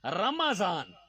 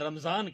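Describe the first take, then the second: First: A short a vowel follows the m. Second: The m runs straight into the z. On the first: The speaker calls it right. "मीम के ऊपर जबर है" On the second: The speaker calls it wrong. "हमारे यहां लोग लफ्ज गलत बोलते हैं"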